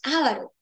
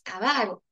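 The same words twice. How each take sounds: First: The stress falls on the first syllable. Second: The stress falls on the second syllable. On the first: The speaker calls it wrong. "decimos avaro y eso no es adecuado" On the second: The speaker calls it right. "es una palabra grave"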